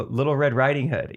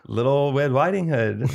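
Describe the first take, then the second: First: Said in the usual way. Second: "Little Red Riding Hood" said slowly with the R's as W's, "Little Wed Widing Hood"; slow "Little Red Riding Hood" with W for every R; mock speech impediment. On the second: Shown as a demonstration. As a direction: drag it out like a kid who can't say R.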